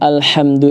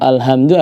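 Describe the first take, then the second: First: The h is a deep pharyngeal sound. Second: The h is a light plain sound. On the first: It means all praise. The speaker calls it right. "Kalau alhamdu itu artinya adalah segala puji" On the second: It means all diseases. The speaker calls it wrong. "kalau alhamdu artinya segala penyakit"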